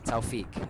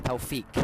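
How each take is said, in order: No difference in how they are said.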